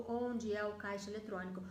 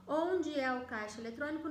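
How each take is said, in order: First: "onde é o caixa eletrônico" low, with no question lift; non-question intonation. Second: "Onde" lifted and stronger, as a direct question; question intonation. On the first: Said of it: "Eu mudo a entonação do". (entonação baixa, sem pergunta em "onde") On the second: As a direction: ask "Onde é o caixa eletrônico?" on its own. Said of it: "não é mais uma pergunta". (entonação de pergunta, com "Onde" mais forte) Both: Shown as a demonstration.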